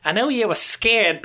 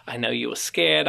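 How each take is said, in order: First: "I know you were scared" fired off high and loud in a hammed-up Australian accent, hitting "you"; an exasperated Australian mum snapping "I know you were scared"; a relieved, frustrated mother snapping "I know you were scared" in a loud mock Australian accent; mock Australian scolding. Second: A father reassuring his son that "I know you were scared" in a gentle, calm voice; gentle reassurance. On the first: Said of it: "sorry, Australians, that was my best, best, uh, effort here".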